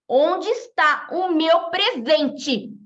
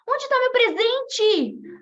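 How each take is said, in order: First: It is said in a threatening way. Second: It is said with anxious eagerness.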